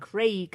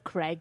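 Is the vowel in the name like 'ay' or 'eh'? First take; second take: ay; eh. First: The vowel sounds like 'ay' in 'day'. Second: The vowel sounds like 'eh' in 'egg'. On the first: The speaker calls it right. "Craig, not Craig" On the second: The speaker calls it wrong. "if it was Craig, it would be C R E G"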